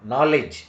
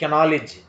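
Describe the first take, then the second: First: The word begins without a k sound. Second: The word begins with a k sound. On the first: The speaker calls it right. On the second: The speaker calls it wrong.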